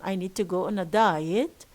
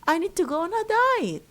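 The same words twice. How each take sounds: First: The pitch falls and then rises. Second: The pitch rises and then falls. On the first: "Falling, rising" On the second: "this is rising, falling"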